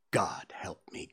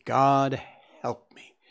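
First: Despairing whisper. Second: Breaking into sobs. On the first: Thief breaks down confessing. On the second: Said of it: "He burst into convulsive sobbing". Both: Acted.

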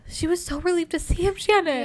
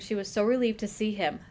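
First: Higher, swooning repeat; gushing, higher reread; gushing emphasis. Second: Said in the usual way. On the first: Shown as a demonstration. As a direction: relive the relief for your friend.

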